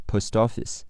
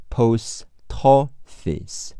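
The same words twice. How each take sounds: First: Said in the usual way. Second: "Post office" slowly as "pos-toffice", t joined to o; linked pronunciation, slowed. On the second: Shown as a demonstration. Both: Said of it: "连在一起读".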